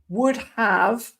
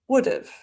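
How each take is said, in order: First: The word have is said in full. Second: The word have is reduced to a weak vowel.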